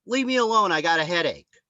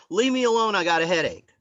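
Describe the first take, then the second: First: Mock annoyed brush-off. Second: Higher, louder, savouring each word; gleeful mock brush-off; relishing the line. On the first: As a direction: shoo the pest away. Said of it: "she says". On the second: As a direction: repeat it like a prize. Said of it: "that's a great line".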